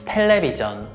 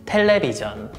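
No difference in how they are said.

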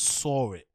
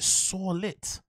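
First: The words join with no added L sound. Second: An added L sound joins the two words. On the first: "this is a crazy way to pronounce saw it" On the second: "You pronounce it saw lit"

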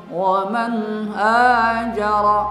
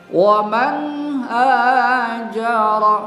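The two takes are said the same way.

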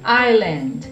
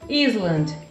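First: The S is silent in the middle. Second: The S sound is pronounced in the middle. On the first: The speaker calls it right. "A pronúncia correta é Island" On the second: The speaker calls it wrong. "muita gente pronuncia o S"

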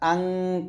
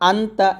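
First: The n is hidden in a nasal hum. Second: The n is a plain, clear n sound. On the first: The speaker calls it right. "গুন্না করতে হবে ... ইকফা গুন্না" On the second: The speaker calls it wrong. "এরকম উচ্চারণটা হওয়ার কথা ছিল, বাট এখানে আনতা হবে না"

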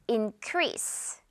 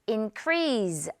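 First: The word ends with a hissing s sound. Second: The word ends with a buzzing z sound. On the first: The speaker calls it right. "S 발음" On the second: The speaker calls it wrong. "increase 아니고"

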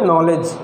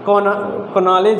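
First: The word begins with an n sound. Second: The word begins with a k sound. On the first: The speaker calls it right. "हम लोग यहाँ से पढ़ते हैं नॉलेज" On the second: The speaker calls it wrong. "कनॉलेज पढ़ेंगे तो गलत हो जाएगा"

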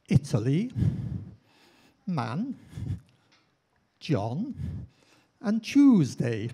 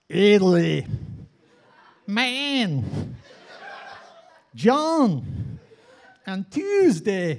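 First: The words are said in a British accent. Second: The words are said in an American accent. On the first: The speaker calls it wrong. "my first attempt" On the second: The speaker calls it right. "I think I really nailed it the next time"

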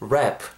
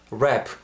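The two takes are said the same way.

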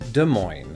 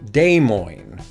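First: It is said with the local pronunciation. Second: It is said with a French-style pronunciation. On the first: The speaker calls it right. "the locals and sort of people from the surrounding areas actually pronounce it" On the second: The speaker calls it wrong. "my corrupted attempt at French"

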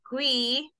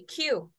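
First: The letter name ends with an 'ee' vowel. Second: The letter name ends with an 'oo' vowel. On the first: The speaker calls it wrong. "It's not quee" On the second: The speaker calls it right. "We say Q"

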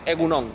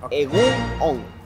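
First: The two words are run together quickly. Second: The two words are said separately. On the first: The speaker calls it right. "se dice todo pegado. ... se dice así rapidito" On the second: The speaker calls it wrong. "Pensé que se decía separado egunon"

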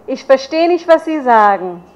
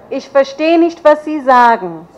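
The two takes are said the same way.

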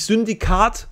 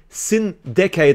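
First: It sounds like the German word 'Syndikat'. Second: It sounds like 'Sin' followed by 'Decade'. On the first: The speaker calls it wrong. "nicht Syndikat" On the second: The speaker calls it right. "sondern Sin Decade"

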